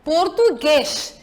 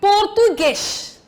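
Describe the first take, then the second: First: The final stressed vowel sounds closed. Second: The final stressed vowel sounds closed.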